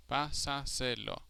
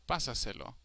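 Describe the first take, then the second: First: Pásaselo slowly split as pá-sa-se-lo; slow pásaselo down, separating all four syllables. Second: Said in the usual way. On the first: Shown as a demonstration. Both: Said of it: "strongest sounding syllable is the fourth to last".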